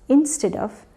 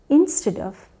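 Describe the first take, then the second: No difference in how they are said.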